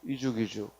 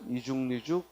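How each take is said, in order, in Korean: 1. 받침이 그대로 다음 음절로 넘어가며, n은 첨가되지 않습니다. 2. 둘째 부분 앞에 n 소리가 첨가됩니다. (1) "이죽이죽 하면은 연음한 거죠" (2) "이죽니죽 하면 니은이 첨가된 발음"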